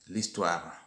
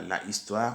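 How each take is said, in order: First: The article is elided onto the noun. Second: The article is said in full, unelided. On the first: The speaker calls it right. "mais on dit" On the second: The speaker calls it wrong. "On ne dit pas"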